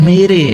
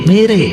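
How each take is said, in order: Both takes have the same delivery.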